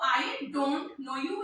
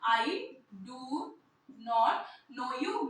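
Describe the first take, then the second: First: Do not is contracted into one syllable. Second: Do not is said as two full words.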